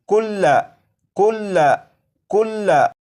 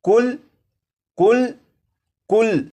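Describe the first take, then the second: First: The word ends with a final short vowel. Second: The word ends on the consonant, vowel dropped. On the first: This is the full written form of the word. "ये लफ्ज़ लिखा है" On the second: This is how it is read when stopping on it. "वक्फ में पढ़ेंगे तो लाम के ऊपर जो ज़बर है इस ज़बर को नहीं पढ़ेंगे"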